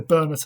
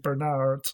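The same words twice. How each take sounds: First: The name is said the non-American way. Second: The name is said the American way.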